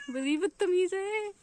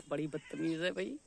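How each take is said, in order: First: Very high, slow pet-talk voice; playful scolding. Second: Said in the usual way. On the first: Real, not acted. Owner playfully scolds the naughty pet, high slow coo.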